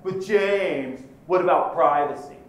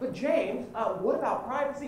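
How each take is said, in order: First: It is asked in a sneering, accusing tone. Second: It is asked in a mild, hesitant tone. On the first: The asker is challenging and hostile. "the tone of voice people assume when they ask it" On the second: The asker is politely curious. "It's never like that"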